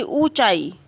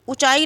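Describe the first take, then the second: First: ऊंचाई opening on a drawn-out OO; long oo. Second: ऊंचाई opening on a quick short u. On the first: Teacher correcting it, ऊंचाई with long oo. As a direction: lengthen the first vowel of ऊंचाई. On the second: Teacher showing the wrong form, ऊंचाई with short u. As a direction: clip the first vowel of ऊंचाई. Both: Shown as a demonstration. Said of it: "दीर्घ ऊ रहेगा".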